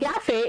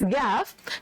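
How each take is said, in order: First: The word ends with an extra vowel syllable. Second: The word ends on the final consonant. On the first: The speaker calls it wrong. "it's not" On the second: The speaker calls it right.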